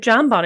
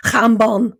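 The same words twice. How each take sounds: First: Said in the usual way. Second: "jambon" said slowly in a Spanish way; pointed Spanish correction of "jambon"; corrected pronunciation. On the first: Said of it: "Don't you mean". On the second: Retold or imitated. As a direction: mimic sister correcting "jambon", throaty first sound. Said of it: "you said, "Don't you mean".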